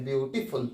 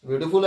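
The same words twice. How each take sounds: First: beautiful in three beats, softer and lower; syllable by syllable. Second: Said in the usual way. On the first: Shown as a demonstration. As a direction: break beautiful into বিউ, টি, ফুল. (Beautiful তিন ভাগে ভেঙে, নিচু স্বরে) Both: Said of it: "এক নিঃশ্বাসে উচ্চারণ করে থাকি".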